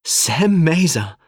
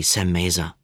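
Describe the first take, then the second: First: High, loud, drawn-out name; delighted exclamation. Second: Said in the usual way. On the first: A narrator's reading. Sadie greets Sam while hugging him, exclaiming with delight. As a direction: greet a long-lost friend with delight.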